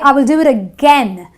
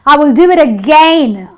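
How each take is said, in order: First: The second vowel is an eh sound. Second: The second vowel is not an eh sound. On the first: The speaker calls it right. "the ai gives me the eh sound" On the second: The speaker calls it wrong. "I don't say I will do it again"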